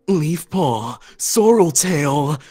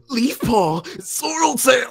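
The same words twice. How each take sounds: First: It is said in a deeper dad voice. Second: It is said in a generic anime voice.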